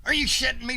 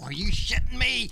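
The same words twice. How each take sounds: First: Louder, higher disbelieving shout; louder outrage. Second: Loud incredulous outburst; outraged. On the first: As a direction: shout it harder the second time. Repeated, louder. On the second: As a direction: throw it back in disbelief. Repeated outraged question. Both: Real, not acted.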